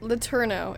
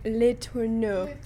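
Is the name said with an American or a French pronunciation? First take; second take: American; French. First: The name is said with an American pronunciation. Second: The name is said with a French pronunciation. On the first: "is probably how we say it because we're American" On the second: "In French, you'd be like"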